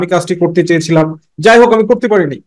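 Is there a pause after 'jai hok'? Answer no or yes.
no. There is no pause after jai hok. The speaker calls it wrong. "আমরা কেন এইভাবে বলি না"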